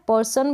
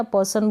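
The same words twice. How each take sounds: First: पर्सन with the r sounded; r pronounced. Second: पर्सन with a silent r; r dropped. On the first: Teacher saying both are correct, r pronounced in पर्सन. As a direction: let the r be heard before s in पर्सन. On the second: Teacher saying both are correct, r dropped in पर्सन. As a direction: go from the vowel straight to s in पर्सन. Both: Shown as a demonstration. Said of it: "दोनों ही correct है".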